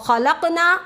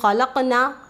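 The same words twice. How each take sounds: First: The final vowel is short, not stretched. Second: The final vowel is stretched long. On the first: Those women created. The speaker calls it wrong. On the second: We created. The speaker calls it right.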